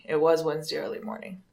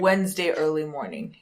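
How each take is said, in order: First: "was" pushed up in insistence; stress on was. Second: Said in the usual way. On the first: Real, not acted. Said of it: "Wednesday night".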